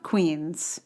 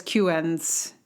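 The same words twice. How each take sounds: First: Said in the usual way. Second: Queens said like "Q-ens", as letters Q-N-S; GPS mispronunciation. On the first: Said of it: "and not Queens". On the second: Retold or imitated. Podcaster quoting how the GPS says Queens, mispronounced as "kyoo-enz". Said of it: "why it says Queens".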